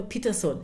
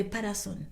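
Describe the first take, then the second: First: Peterson with an "ee" first vowel; usual English pronunciation. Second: Patterson with open "a" vowels, Pa-ta-son; local pronunciation. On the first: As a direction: say Peterson with a long "ee" at the start. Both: Shown as a demonstration. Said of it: "Here we say Patterson".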